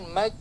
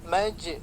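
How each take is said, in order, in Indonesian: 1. Konsonan akhir berhenti mendadak, tanpa lepasan. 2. Konsonan akhir memantul sedikit. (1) "Kalau dihilangkan maj, nah, stop dia suaranya, tertahan" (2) "karena di sifatnya ada kalau-kalau jadi mantul"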